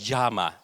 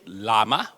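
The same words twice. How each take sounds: First: The word is pronounced the Spanish way. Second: The word is pronounced the English way.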